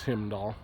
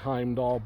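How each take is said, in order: First: The first syllable sounds like 'him'. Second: The first syllable sounds like 'hime'. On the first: This is the name the animal actually goes by. The speaker calls it wrong. "the original owner mispronounced his name" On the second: This is the name as originally intended. The speaker calls it right. "It's supposed to be Heimdall"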